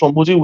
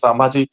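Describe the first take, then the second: First: The name is said as Shambhuji. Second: The name is said as Sambhaji. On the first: This is the form used among the group. "আমি শম্ভুজি উচ্চারণ করবো" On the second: This is the form used at home. "বাড়িতে আমি সাম্ভাজি"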